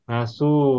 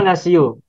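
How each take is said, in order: First: The word has two syllables without an i-sound. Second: The word has three syllables with an i-sound. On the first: This is the form actually used. The speaker calls it right. "Maka menjadi nasu" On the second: This is the underlying form, not actually read this way. The speaker calls it wrong. "Mengucapkan kata nasiu itu merepotkan lisan kita"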